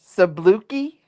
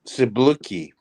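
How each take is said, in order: First: Sabluki echoed as a question with a rising end; repeating Sabluki. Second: Sabluki said sa-BLU-ki with a falling end. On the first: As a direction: try Sabluki back, unsure. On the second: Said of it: "What is the other thing?". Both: Shown as a demonstration.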